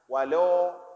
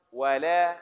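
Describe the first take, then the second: First: The L sound is thick and dark. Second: The L sound is thin and light. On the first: The speaker calls it wrong. "jangan walau" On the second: The speaker calls it right. "yang tipis kita tipiskan"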